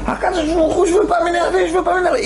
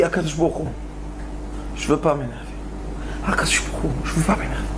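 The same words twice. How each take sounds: First: Desperate shout of prayer; crying out. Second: Low, soft, half-whispered prayer; hushed pleading to God; quiet plea. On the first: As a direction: break out into a cry to God. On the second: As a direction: murmur it to yourself, holding back. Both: Retold or imitated. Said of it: "Et il crie".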